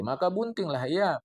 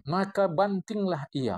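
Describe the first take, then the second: First: Buntinglah with a clear u, bun-ting; the right Jawi reading; correct reading bunting. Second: Bantinglah read slowly with an a, ban-ting; the wrong Jawi reading; mock wrong reading banting. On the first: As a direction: read it as buntinglah, not banting. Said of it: "Ini jangan salah baca". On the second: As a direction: misread it as bantinglah, deliberately and slowly. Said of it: "Ah, siapa banting?". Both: Shown as a demonstration.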